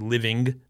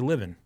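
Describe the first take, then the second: First: The ending is said with a full g sound. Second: The ending is said without the g sound. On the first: "I don't say living" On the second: "I drop them off the end"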